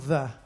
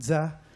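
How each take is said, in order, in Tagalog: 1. Nagsisimula ang salita sa malambot na tunog na th. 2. Nagsisimula ang salita sa tunog na z na may panginginig.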